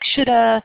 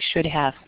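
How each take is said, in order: First: The words are reduced and run together. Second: Both words are said fully and separately. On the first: "It sounds like shoulda or should've" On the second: "They're saying should have"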